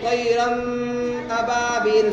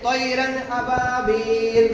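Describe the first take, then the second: First: The n sound is held and nasalized. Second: The n sound is clear, without nasal hold. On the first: The speaker calls it wrong. "अगर कोई ऐसा पढ़े ... सही पढ़ा उसने?" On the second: The speaker calls it right. "जैसे मिसाल तौर पे"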